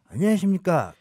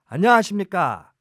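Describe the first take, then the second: First: The voice sounds rougher and huskier. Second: The voice sounds somewhat clearer and cleaner. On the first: It imitates one politician's voice. "디제이 좀 더 탁해" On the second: It imitates another politician's voice. "좀 쪼끔 더 맑아요, 한화갑이"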